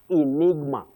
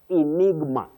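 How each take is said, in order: The two takes are said the same way.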